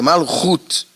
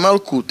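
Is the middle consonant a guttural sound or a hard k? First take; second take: guttural; hard k. First: The middle consonant is a breathy guttural sound. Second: The middle consonant is a hard k sound. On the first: The speaker calls it right. "é Malhut ... o Kaf tem som de Ra ou de K" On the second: The speaker calls it wrong. "Não é Malkut, ... Malkut é uma forma errada que eles escrevem na internet, é uma forma brasileirada"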